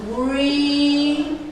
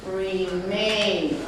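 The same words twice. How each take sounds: First: Remain split into re and main, drawn out; syllables separated. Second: Said in the usual way. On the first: Shown as a demonstration. Teacher splitting Remain for students, slow and separated. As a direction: pull Remain apart syllable by syllable. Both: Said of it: "We can separate the syllables".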